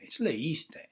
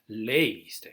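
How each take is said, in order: First: The stress falls on the second syllable. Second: The stress falls on the first syllable. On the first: The speaker calls it right. "so just be aware to put the accent" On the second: The speaker calls it wrong. "it's not leíste"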